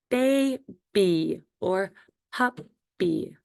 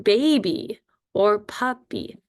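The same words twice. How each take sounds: First: Put-on BABY and PUPPY very slow, a gap between syllables; split into syllables. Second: Said in the usual way. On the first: Shown as a demonstration. Teacher showing first graders two-syllable words, split into syllables. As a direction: draw out each syllable of baby and puppy separately. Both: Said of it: "two or more syllables".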